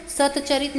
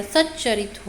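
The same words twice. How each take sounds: First: सतचरित said with a clear separate त then च; teacher sounds out सतचरित as sat-charit, the form to avoid; wrong form, split. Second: सच्चरित said with the त merged into a doubled च, sach-charit; teacher lands on सच्चरित with a held double च; right form, doubled च. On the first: Teacher shows students the wrong sandhi, sounding each part. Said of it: "तो सतचरित नहीं हो रहा". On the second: Teacher gives students the correct sandhi, doubling the च. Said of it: "सच्चरित हो रहा है". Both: Shown as a demonstration.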